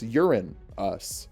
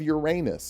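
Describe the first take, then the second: First: It sounds like 'urine us'. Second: It does not sound like 'urine us'. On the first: The speaker calls it right. "I believe it's Urine us" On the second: The speaker calls it wrong. "I think I pronounced that wrong"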